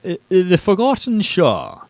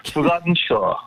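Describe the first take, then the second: First: A light put-on English accent on "The Forgotten Shore"; host trying a playful British accent; mock English accent. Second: Put-on English accent echo. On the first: Host tries a light English accent on the book title. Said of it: "maybe I'll try an English accent". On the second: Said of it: "That's correct".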